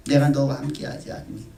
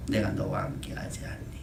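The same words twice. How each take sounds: First: Said in the usual way. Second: A hushed, softer 내가 너와 함께하지 않니; God softly reminding the congregation he is near; gentle promise. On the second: Acted. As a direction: lean in and reassure quietly. God's promise repeated softly.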